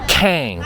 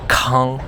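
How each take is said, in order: First: The vowel rhymes with the English word hang. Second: The vowel does not rhyme with hang. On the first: This is how Americans would say it. The speaker calls it wrong. "in the United States we would pronounce it Kang, like the word hang" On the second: This is the original pronunciation. The speaker calls it right. "the actual pronunciation is Kang"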